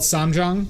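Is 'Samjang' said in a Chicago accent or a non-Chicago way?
non-Chicago. It is said without a Chicago accent.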